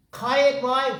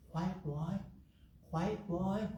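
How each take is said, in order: First: Louder and higher, calling for attention; emphatic. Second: Much softer, hushed and gentle; quiet voice. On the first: Teacher snapping students back to attention, loud and high. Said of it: "Here, look at me". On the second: Meditation teacher showing students a quiet voice, softly. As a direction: say it the way a quiet voice sounds. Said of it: "you can listen to quiet voice". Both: Shown as a demonstration.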